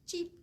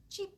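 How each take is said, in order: Both takes have the same delivery.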